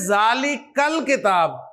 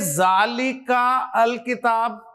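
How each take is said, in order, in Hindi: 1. 'al' का स्वर गिर जाता है और पिछले शब्द से जुड़ जाता है। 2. 'al' को उसके स्वर के साथ अलग से बोला जाता है। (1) "पीछे से मिलाकर पढ़ते हुए हमजातुल वसल की अब जरूरत नहीं रही" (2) "ऐसे तो नहीं पढ़ेंगे ना"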